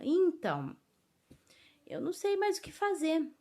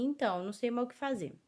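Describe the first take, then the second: First: There is a pause after the first word. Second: There is no pause after the first word. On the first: The speaker calls it right. "quando a gente quer colocar uma dramaticidade" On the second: The speaker calls it wrong. "Porque senão ficaria assim"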